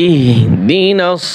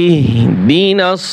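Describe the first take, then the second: The two takes are said the same way.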